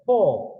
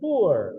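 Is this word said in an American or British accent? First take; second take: British; American. First: The word is said in a British accent. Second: The word is said in an American accent. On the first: "ඒක එංගලන්තේ කෙනා කියන්නේ කොහොමද?" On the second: "එතකොට ඇමරිකාවේ කෙනා කියන්නේ මොකද?"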